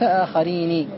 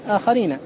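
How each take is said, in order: First: The final n carries an i vowel. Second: The final n carries an a vowel. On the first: This is the rare form used in poetry. "وقل من نطق بكسرها، ومنه قول الشاعر" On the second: This is the standard form. "كان الأصل أن يقال آخرين"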